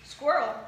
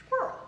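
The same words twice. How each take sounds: First: Said in the usual way. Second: A hint of a famous narrator's voice; lightly attempted narrator impression, raised in pitch; Morgan Freeman. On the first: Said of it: "do an impression of Morgan Freeman". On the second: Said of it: "So I'm Morgan Freeman".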